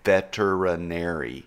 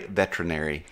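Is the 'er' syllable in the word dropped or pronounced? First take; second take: pronounced; dropped. First: The word is said with the 'er' syllable. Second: The word is said without the 'er' syllable. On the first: The speaker calls it right. "It is V E T E R I N A R Y, veterinary" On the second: The speaker calls it wrong. "a lot of people in the industry ... say veterinary, but it is not"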